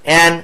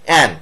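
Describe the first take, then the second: Both takes have the same delivery.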